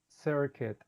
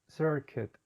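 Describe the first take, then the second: The two takes are said the same way.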